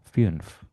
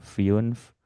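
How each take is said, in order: First: The vowel is one single steady sound. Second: The vowel glides from an i sound into u. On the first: This is how native speakers say it. "aslinya sih harusnya satu kali suara aja ya" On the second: This is an easier learner's version. "Kalau yang baru belajar boleh terdengar dua huruf dulu ya"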